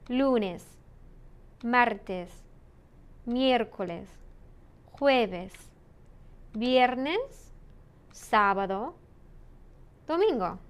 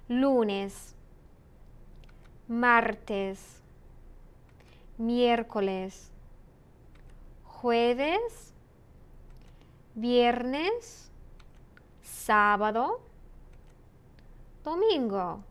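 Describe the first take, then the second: First: The days are said a little faster. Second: The days are said at normal speed.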